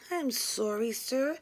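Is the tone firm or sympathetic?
sympathetic. It is said in a soft, sympathetic tone. "I inform him sympathetically"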